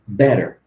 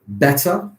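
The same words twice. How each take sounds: First: It is said with an American pronunciation. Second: It is said with a British pronunciation. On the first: "in America" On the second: "Better in the U K"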